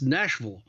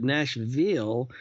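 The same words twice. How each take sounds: First: The final 'ville' syllable is swallowed and reduced. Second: The final 'ville' syllable is stressed and full. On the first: The speaker is from outside the city. "swallow the "ville,"" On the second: The speaker is from inside the city. "even stress the "ville" part a little bit"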